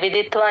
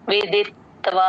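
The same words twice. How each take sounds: First: The t is said plainly with no joining. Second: The t is held and joined to the v. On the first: The speaker calls it wrong. "ప్లేన్ గా కాకుండా" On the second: The speaker calls it right. "అలా రావాలి"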